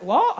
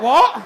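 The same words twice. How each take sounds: First: Baffled reply. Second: Very loud, incredulous yelp; loud baffled reply. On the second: Traveller hearing the bloke sing his offer, loud and incredulous. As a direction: blurt it out in loud disbelief. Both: Retold or imitated.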